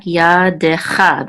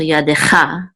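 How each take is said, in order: First: Slow ya decha in separate syllables, YA and CHA stressed; accents on YA, CHA. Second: Ya decha joined up, ending on stressed CHA; main stress on CHA. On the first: Teacher explaining accent marks, ya decha slowly with main stress on CHA. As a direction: sound out ya decha piece by piece. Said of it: "this is a secondary accent mark". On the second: Teacher showing the main accent, ya decha stressed on final CHA. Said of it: "This is the main accent mark". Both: Shown as a demonstration.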